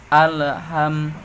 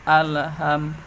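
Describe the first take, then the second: The two takes are said the same way.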